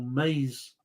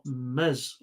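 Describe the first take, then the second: First: Maize said as "mayz", long ay; long-vowel maize. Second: Maize said as "mez", short e; short-vowel maize. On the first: Quizmaster offering the other option, maize as "mayz". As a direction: say maize to rhyme with days. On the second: Quizmaster trying a non-English word, maize as "mez". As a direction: say maize to rhyme with fez. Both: Shown as a demonstration. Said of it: "I'm going to have to pronounce this".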